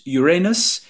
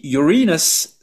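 First: It is said to sound like 'your anus'. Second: It is said to sound like 'urine us'. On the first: "cela ressemble à Your Anus" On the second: "cela ressemble à Urine Us"

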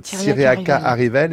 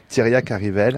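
First: The first name ends with an extra vowel sound. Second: The first name ends without an extra vowel. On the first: The speaker calls it wrong. "ça fait des mois, des années que je parle de" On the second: The speaker calls it right. "maintenant vous me dites qu'il faut dire"

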